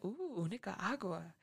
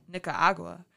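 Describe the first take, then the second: First: Much softer, slow and drawn out; soft slow "Ooh, Nicaragua" with interest; intrigued purr. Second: Said in the usual way. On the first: Retold or imitated. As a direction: savour the name like a treat. She savours the answer, intrigued.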